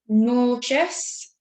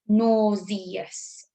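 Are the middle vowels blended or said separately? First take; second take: blended; separately. First: The middle vowels blend into one quick sound. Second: Each middle vowel is sounded out separately. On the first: "if I say it, you can't hear it" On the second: "if I say it slightly differently, you might hear it"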